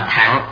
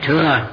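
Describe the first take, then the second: First: The word has vowel a ending in ng. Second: The word has vowel ư with no ending consonant. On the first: This is the old reading of the word. The speaker calls it right. "thời xưa đọc là thẳng" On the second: This is the common modern reading of the word. The speaker calls it wrong. "hiện nay mọi người chúng ta đều đọc là thừa"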